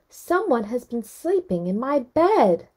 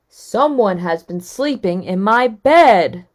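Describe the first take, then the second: First: It is said in Mama Bear's middle-sized voice. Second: It is said in Papa Bear's great big voice.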